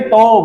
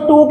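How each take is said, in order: First: The vowel is an 'oh' sound like 'go'. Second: The vowel is a long 'oo' sound. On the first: This follows the spelling like 'go'. "इसको बोलिए टो बड़े शौक से" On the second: This is the usual way people say it. "इसको टू कहते हैं"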